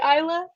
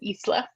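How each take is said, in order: First: It is said with an English pronunciation. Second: It is said with a Spanish pronunciation. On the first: "I never knew that it could be Isla" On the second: "it's always gonna be Isla"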